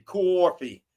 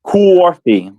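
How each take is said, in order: First: "Coffee." as coor-fee, round oo then r; Jersey coffee. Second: "Coffee." as coor-fee, rounded and rhotic; copying Jersey coffee. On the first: Showing the New Jersey "coffee", coor-fee. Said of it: "C O O R R R for New Jersey". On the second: Repeating the New Jersey "coffee" back, coor-fee. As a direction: echo "Coffee." as kuor-fee. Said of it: "Like that?". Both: Shown as a demonstration.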